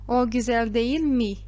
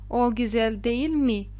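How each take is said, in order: Both takes have the same delivery.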